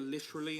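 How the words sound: It is said with a British accent.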